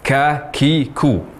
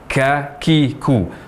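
First: The k sounds carry a heavy rush of breath. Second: The k sounds carry a heavy rush of breath.

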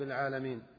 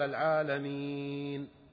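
First: The long vowel is cut short without lengthening. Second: The long vowel is fully lengthened. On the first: The speaker calls it wrong. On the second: The speaker calls it right.

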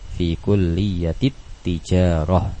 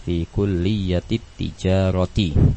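First: The last word ends in a stopped '-ah' sound. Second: The last word ends with a full '-ati' ending. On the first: The pausal rule is applied at the end of the phrase. "dimatikan hurufnya" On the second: Every vowel is read in full while learning. "semua harokatnya kita baca terlebih dahulu semuanya"

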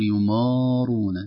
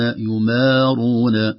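First: The m sounds heavy and thick before the r. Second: The m sounds light and thin before the r. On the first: The speaker calls it wrong. "لا نقول يمارون" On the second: The speaker calls it right. "يمارون هكذا بدون تفخيم"

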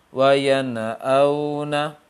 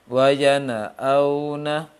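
Both takes have the same delivery.

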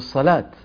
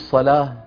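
First: The word ends with a t sound. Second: The word ends with an h sound. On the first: This is how some Arabs, as in Riyadh, end it. "بيوقفوا عليها بإيه؟ بالتاء" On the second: This is how most Arabs end it. "ما بيقولوا"

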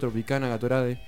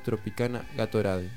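First: The names are read at a normal pace. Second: The names are read slowly and clearly.

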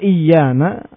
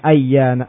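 First: The word begins with an 'i' vowel. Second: The word begins with an 'a' vowel. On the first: "dan mengkasru hamzahnya" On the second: "Dengan fathah pada hamzanya"

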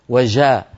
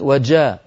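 First: The jeem is said the everyday colloquial way. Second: The jeem is said as a held, stopped sound. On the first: The speaker calls it wrong. "ولا نقول يا أخي الكريم وجاء. هذه جيم عامية" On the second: The speaker calls it right. "الجيم الفصيحة أن يكون صوتها محبوس"

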